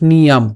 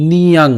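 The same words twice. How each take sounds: First: নিয়াম closed on m; wrong m ending. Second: নিয়াং drawn slowly to an ng ending; anusvara as ng. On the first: Teacher shows the mistake, নিয়াম ending in m. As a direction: shut the lips at the end of নিয়াম. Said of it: "not নিয়াম". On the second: Teacher shows the correct ending, slow নিয়াং with ng. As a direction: finish নিয়াং on ng, lips open. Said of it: "ওই যে অনুস্বার আছে". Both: Shown as a demonstration.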